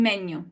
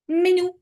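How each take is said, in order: First: "menu" stressed on the first syllable; wrong stress. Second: "Menu" said higher, stressed on the final u; final-vowel stress. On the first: Teacher checking what the class read, stress on first syllable. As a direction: lean on the start of "menu", final vowel light. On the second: Teacher models the correct word for class, stress on final vowel. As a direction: land the weight on the u of "Menu". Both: Shown as a demonstration. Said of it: "the correct pronunciation of these three".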